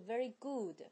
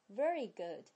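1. good 中的元音是长音。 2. good 中的元音是短音。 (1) "不是very good，不是发长音u" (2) "而是发u u"

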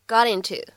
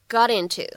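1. 这两个词连读，t变成闪音。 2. 这两个词连读，t变成闪音。

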